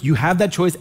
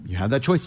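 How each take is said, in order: First: "that" punched and lifted in "You have that choice"; "that" held and stressed, the rest plain. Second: Said in the usual way. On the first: Shown as a demonstration. Repeats line, second take stressed.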